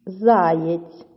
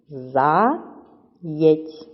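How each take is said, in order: First: Said in the usual way. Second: "Заєць" as two separate syllables, За, pause, єць; teacher slowly dividing "Заєць" after За; split into syllables. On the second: Shown as a demonstration. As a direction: break "Заєць" apart: За... єць. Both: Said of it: "Перевіряємо, чи так у вас".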